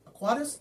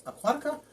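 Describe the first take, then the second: First: "aquatis" guessed as ah-KWAH-tis with a high questioning rise; fumbled try. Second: "Aquatica" said as ah-KWAH-ti-kuh, high and questioning; better try. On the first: Vlogger to viewers, guessing the Latin name "aquatis". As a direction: stumble over "aquatis" like a guess. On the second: Vlogger to viewers, trying Latin "Aquatica" again. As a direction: land on "Aquatica" but still unsure. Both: Real, not acted. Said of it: "I can't pronounce these things".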